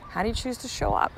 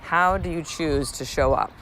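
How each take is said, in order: First: A gentle nudge of a question; softer higher ask. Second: Said in the usual way. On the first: Shown as a demonstration. Host asking the listener directly, softer and higher.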